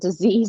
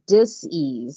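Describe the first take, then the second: First: It is said as one smooth word. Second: It is split into two parts with a break. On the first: It means an illness. "not disease" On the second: It means a lack of ease. "she put a hyphen"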